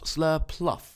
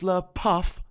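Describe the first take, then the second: First: The second syllable is said with an L sound. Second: The second syllable is said without an L sound. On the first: The speaker calls it wrong. "not Slurpluff. It's a very common mistake" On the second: The speaker calls it right. "it's Slurpuff"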